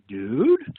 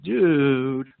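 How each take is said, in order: First: It sounds like a question. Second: It sounds dismayed and annoyed. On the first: The speaker is asking something. "if you were to ask a question" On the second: The speaker is upset about something. "if you were to express consternation"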